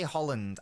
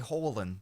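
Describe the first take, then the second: First: The name ends with an audible D sound. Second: The name ends without any D sound. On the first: The speaker calls it wrong. "I don't say Holland" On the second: The speaker calls it right. "I say Holland. There's no D. Norwegian pronunciation"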